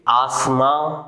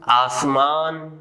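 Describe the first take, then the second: First: The final n is only a nasal vowel. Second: The final n is fully pronounced. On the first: "नून की आवाज नाक से निकलती है" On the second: "इन अल्फाज में नून अपनी मुकम्मल आवाज दे रहा है"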